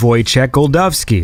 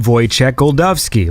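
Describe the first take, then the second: First: The surname has a d sound in the middle. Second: The surname has a d sound in the middle.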